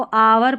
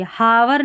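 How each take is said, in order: First: Silent H in आवर; correct pronunciation. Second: Breathed H starting हावर; wrong pronunciation. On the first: Teacher showing how to read hour, आवर without H. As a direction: open आवर on the vowel. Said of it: "इसको आवर पढ़ेंगे". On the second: Teacher showing the error, हावर with H pronounced. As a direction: sound the silent H in हावर. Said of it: "हावर नहीं पढ़ना है". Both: Shown as a demonstration.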